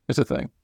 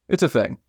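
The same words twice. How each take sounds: First: Softer echo, under the breath; muttered afterthought; trailing off quietly. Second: Said in the usual way. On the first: Real, not acted. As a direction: let it fade away as you repeat it. Repeats the phrase, fading.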